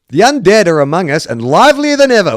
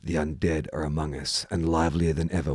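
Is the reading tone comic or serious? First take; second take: comic; serious. First: It is read in a light, comic tone. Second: It is read in a grave, serious tone. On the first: "Sounds like I'm reading a comedy" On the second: "let's see if I can do it serious"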